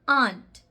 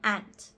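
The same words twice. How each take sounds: First: It is said in a British or Indian accent. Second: It is said in an American accent. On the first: "In the British English as well as the Indian English" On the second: "in the American accent"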